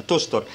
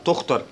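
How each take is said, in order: First: تشتر, middle consonant like Arabic ش; sh sound. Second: تختر, middle consonant like Arabic خ; kh sound. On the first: Teacher repeating the umlaut rule, sh in تشتر. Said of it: "بتتنطق شين". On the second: Teacher repeating the rule, throaty kh in تختر. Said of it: "بيتنطق خ". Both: Shown as a demonstration.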